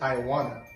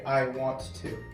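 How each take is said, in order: First: Want to is blended into one word, wanna. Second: Want to is said as two full words. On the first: "He says" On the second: "Steve Jobs doesn't actually say"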